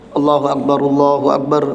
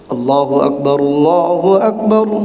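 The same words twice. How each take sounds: First: The phrase is recited quickly without drawing out. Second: The phrase is recited slowly with drawn-out words. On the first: This is the call that starts the prayer itself. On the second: This is the call that announces prayer time.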